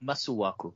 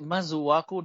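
First: Masuaku with a hissed s, not z; alternative pronunciation. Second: Masuaku with a buzzing z in the middle; imitated pronunciation. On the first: Shown as a demonstration. Co-host offers Kylie the other reading of the name, s in Masuaku. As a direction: say Masuaku as "Massuaku". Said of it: "Why is it Masuaku, not Masuaku?". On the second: Co-host asks Kylie about her way of saying the name, imitated z in Masuaku. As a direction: say Masuaku as "Mazuaku".

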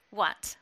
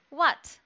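First: Said in the usual way. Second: Higher, louder indignant "What?". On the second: Acted. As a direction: press her, affronted. Ezra pressing after her tone.

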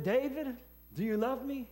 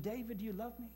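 First: Higher, insistent ask of David; God's voice calling out, insistent; pressing question. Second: Softer, tender asking of David; God's voice asking gently the third time; gentle question. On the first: God asks three times, pressing. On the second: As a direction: ask it softly, almost pleading. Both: Retold or imitated.

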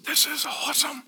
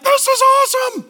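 First: Very soft, put-on awed voice; hushed delight. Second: High-pitched, put-on cry of delight; mock elation. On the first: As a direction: act quietly thrilled, almost under the breath. Voicing Paul delighted while writing. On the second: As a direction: exclaim like an absurdly thrilled prisoner. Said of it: "You're like".

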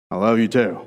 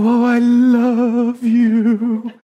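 First: Low, understated "I love you too"; matter-of-fact, low-pitched reply; dutiful reply. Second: High, drawn-out lovey swoon; hammed-up sing-song "love", stretched long; mock gushing. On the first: Acted. Man answering by logic to please her, dutiful. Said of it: "So then we go". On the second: Man mimicking what women want from guys, mock gushing. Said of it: "You want us to go".

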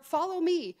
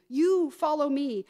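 First: Said in the usual way. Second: "you" louder and drawn out; slow, emphatic "you"; stress on YOU. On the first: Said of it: "These last two invitations are". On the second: Shown as a demonstration. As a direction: lean hard on "you" before "follow me". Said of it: "emphasize the word "you".

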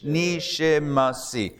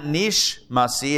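First: Nishimasi said slowly with a clear i, ni-shi-ma-si; correct reading. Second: Nishmasi run together with no i after nish; wrong reading. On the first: Teacher showing students the correct form, slow Nishimasi. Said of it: "it's Nish, Nishimasi". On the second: Teacher showing students the common mistake, clipped Nishmasi. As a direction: clip Nishmasi into three syllables. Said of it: "So it's not". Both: Shown as a demonstration.

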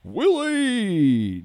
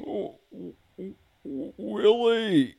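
First: High loud squawk of the name; Alf voice attempt. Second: High loud squawked call of a name; Alf imitating Willie. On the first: Second try at Alf's voice for the hosts. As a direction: try again at Alf shouting for Willie. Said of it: "we're going in the wrong direction with it". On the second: Alf voice calling for Willie on the podcast. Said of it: "actually a Willie imitation".

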